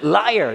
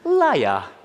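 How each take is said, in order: First: It is said in an American accent. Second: It is said in a British accent. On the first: "미국식 영어로 하면" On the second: "영국식으로 하면"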